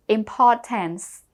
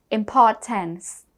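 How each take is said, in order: Both takes have the same delivery.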